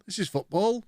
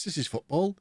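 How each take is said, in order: First: Higher, rising football, pushed harder; more excited. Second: A little higher with a rising end on football; excited. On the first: Streamer admiring the move again, more excited. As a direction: repeat it with bigger delight. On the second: Streamer admiring a move, mildly excited. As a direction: sell it with pleased excitement. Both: Real, not acted.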